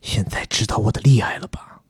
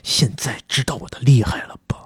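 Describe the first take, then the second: First: It is said in a deep, gruff voice. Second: It is said in a plain reading voice.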